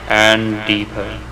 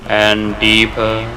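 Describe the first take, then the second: No difference in how they are said.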